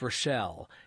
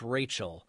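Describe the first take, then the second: First: The name is said as ro-SHELL. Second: The name is said as RAY-chel. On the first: This is how Northerners say the name. "if you're from the North, it's Rochelle" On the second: This is how Southerners say the name. "If you're from the South, it's Rachel"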